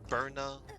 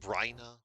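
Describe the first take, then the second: First: The name begins with a 'bur' sound. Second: The name begins with a 'bry' sound.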